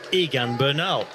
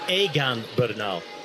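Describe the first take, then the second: First: The name is said with English sounds. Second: The name is said with Spanish sounds. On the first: The speaker calls it wrong. "in English, you would pronounce it, just look at it and say" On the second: The speaker calls it right.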